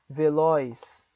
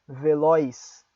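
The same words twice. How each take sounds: Both takes have the same delivery.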